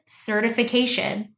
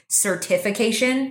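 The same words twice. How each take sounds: First: Said in the usual way. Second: Certification with the stress put on the wrong syllable; wrong emphasis. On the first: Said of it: "I was about to say". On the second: Shown as a demonstration. Owning up to a slip, misplaced stress on certification. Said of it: "I pronounce words fucked up".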